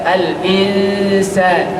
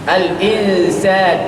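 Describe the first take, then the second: No difference in how they are said.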